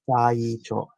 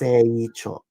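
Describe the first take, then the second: First: The first syllable sounds like 'sigh'. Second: The first syllable sounds like 'say'. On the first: The speaker calls it wrong. "Saicho, it would be S A I" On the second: The speaker calls it right. "It's Seicho"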